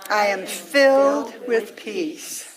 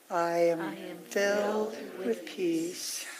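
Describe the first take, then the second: First: It is said at the loudest level of all. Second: It is said a little more quietly than before. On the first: "let it get softer and softer" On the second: "let it get softer and softer"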